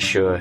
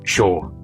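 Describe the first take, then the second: First: The vowel sounds closer, unlike in 'shore'. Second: The vowel sounds open, like in 'shore'. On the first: This is the speaker's own Scottish-leaning way. "whereas I say it sure" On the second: This is how it is said in Essex. "in Essex that'd be more like shore, like the shore at the beach"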